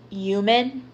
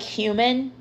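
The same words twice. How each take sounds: First: Human said as yuman, H dropped, starting on a Y sound; New York dropped H. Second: Said in the usual way. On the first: Shown as a demonstration. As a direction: drop the H in human like a New Yorker. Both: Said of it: "you're putting a Y and you're dropping the H".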